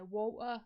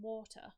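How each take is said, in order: First: It is said in a broad local accent. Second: It is said with careful, clear enunciation. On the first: It sounds common and chavvy. The speaker calls it wrong. "where we're from, we say water" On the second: It sounds more polished, even posh. The speaker calls it right. "So I'm trying to enunciate"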